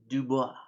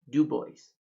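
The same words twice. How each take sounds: First: The name is said with French pronunciation. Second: The name is said with American English pronunciation. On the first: This is how a French speaker says it. "if you were French, you'd pronounce it" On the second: This is how locals in Wyoming say it. "here in Wyoming, it's called"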